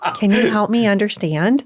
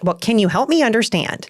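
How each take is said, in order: First: It sounds genuinely curious and open. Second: It sounds condescending and accusing.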